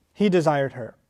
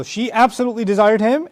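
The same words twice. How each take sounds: First: "he desired her" dropped low and falling; no stress. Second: ABSOLUTELY pushed high, rising at "him"; emphatic stress. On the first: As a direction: say "he desired her" lower, with no emphasis. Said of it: "much stress placed on his feelings at all". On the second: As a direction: lean on "absolutely", leave "him" hanging upward. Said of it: "huge amount of stress placed on her feelings". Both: Shown as a demonstration.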